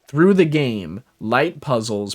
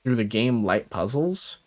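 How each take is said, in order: First: There is a pause after game. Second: The words run together without a pause. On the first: Light puzzles start a new list item. The speaker calls it right. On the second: The game's light puzzles are one phrase. The speaker calls it wrong.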